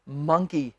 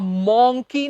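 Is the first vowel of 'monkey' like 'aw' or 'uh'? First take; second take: uh; aw. First: The first vowel sounds like 'uh'. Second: The first vowel sounds like 'aw'. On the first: The speaker calls it right. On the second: The speaker calls it wrong. "मॉन्की नहीं, मॉ की आवाज नहीं"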